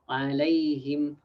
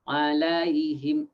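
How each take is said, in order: First: The vowel glide is smooth and soft. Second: The vowel glide is abrupt and hard. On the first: The speaker calls it right. "should be smooth, as in alayhim" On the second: The speaker calls it wrong. "some people read alayhim"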